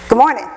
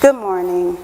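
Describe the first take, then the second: First: It is said quickly. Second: It is said slowly.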